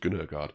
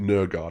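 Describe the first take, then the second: First: The first G is pronounced. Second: The first G is silent. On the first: "but I think it's Gnergard" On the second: "I would do the silent G"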